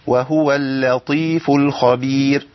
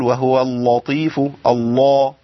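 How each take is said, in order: First: اللطيف with a thin light ل, slow; correct light lam. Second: اللطيف with the ل wrongly thickened; wrong heavy lam. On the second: Teacher showing students the wrong thick lam. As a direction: exaggerate the heavy lam mistake. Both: Shown as a demonstration. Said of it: "ما ينفعش أقول".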